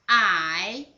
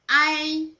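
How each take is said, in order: First: The pitch dips low then rises. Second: The pitch stays high and level.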